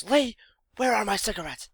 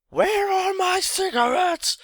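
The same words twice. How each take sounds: First: A pointed, suspicious question to her son; mom demanding. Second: Imitating mom's shrill high scream from downstairs, slowly; roaring scream. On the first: Retold or imitated. Mom confronts son upstairs. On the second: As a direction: hurl it up the stairs as a furious high yell. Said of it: "she makes this kind of roaring scream".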